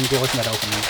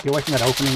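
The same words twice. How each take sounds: First: Loud repeated command; loud firm order. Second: Loud, higher command; loud urgent order. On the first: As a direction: bark the order again, firmer. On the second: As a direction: shout them away from the gap. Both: Real, not acted. Ordering teammates away from gap.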